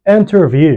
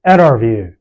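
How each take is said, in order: First: The T after N is pronounced. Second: The T after N is silent. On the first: "instead of saying interview" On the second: "you say interview"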